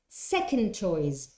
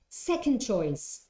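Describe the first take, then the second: First: The d sound at the end of second is dropped. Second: The same.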